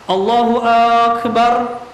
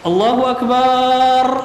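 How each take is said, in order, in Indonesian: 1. Vokal pertama pada Akbar dipanjangkan. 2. Vokal setelah b pada Akbar dipanjangkan. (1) "dipanjangkan huruf hamzah di akbarnya" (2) "ba-nya dipanjangkan"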